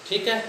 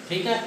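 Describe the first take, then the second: No difference in how they are said.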